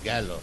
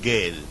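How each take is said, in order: First: The word ends with an 'o' vowel. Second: The word ends without a final vowel. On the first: The speaker calls it right. "the pronunciation is gallo" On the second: The speaker calls it wrong. "But he said gale. So people were smiling"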